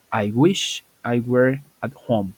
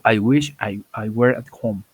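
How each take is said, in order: First: Slow, carefully spaced English model line; slow model sentence. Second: Said in the usual way. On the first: Shown as a demonstration. Teacher modeling English for Spanish-speaking students, slow and clear. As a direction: spell out "I wish I were at home" word by word, slowly. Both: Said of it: "Y digo".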